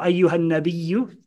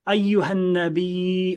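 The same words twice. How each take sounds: First: The word is pronounced as in the Hafs reading. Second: The word is pronounced as in the Warsh reading. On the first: "depending upon whether you're used to warsh or hafs" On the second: "depending upon whether you're used to warsh or hafs"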